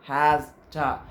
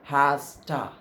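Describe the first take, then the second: No difference in how they are said.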